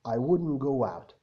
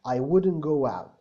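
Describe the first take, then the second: First: The words run together, linked smoothly. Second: The same.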